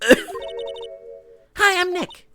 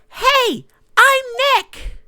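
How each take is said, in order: First: It is said at a normal, quiet volume. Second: It is said louder, almost shouted.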